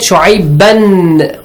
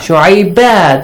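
First: The word ends with an n sound. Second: The word ends with a long a sound. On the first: The reciter carries on without stopping. "So I said Shu'aiban" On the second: The reciter stops at this word. "you pronounce it Shu'aiba because of the rule of stopping"

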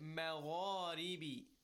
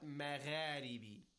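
First: The gh is heavy with rounded lips. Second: The gh is light and thin. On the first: The speaker calls it right. "rounded mouth with a heavy voice" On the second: The speaker calls it wrong.

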